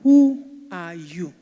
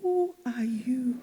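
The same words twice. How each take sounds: First: Slow, loud, every word weighed; forceful question. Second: Slow, breathy hushed whisper. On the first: Preacher confronting the congregation, slow and loud. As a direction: challenge the room to answer. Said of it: "preacher challenging the congregation". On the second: Preacher asking the congregation again in a slow whisper. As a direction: lean in and whisper it. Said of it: "preacher repeats question softly". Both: Shown as a demonstration.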